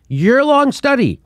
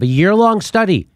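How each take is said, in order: First: YEAR-LONG drawn out slowly and pitched high; emphatic repeat. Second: Said in the usual way. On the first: Real, not acted. Host repeats study length to viewers, emphatically. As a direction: stretch "year-long" high and slow to drive it home.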